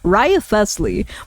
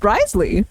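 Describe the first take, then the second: First: Every written syllable of the name is pronounced. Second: The name is squeezed into two short syllables. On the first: The speaker calls it wrong. "I used to like read out all of the syllables" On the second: The speaker calls it right. "apparently it's just Risley"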